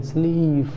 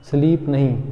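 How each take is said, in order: First: Teacher's correct स्लीप; long ee. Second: स्लीप said with a short i, as the wrong way; short clipped i in स्लीप to show the error; teacher shows the wrong स्लीप. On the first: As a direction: draw out the ee in स्लीप. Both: Shown as a demonstration.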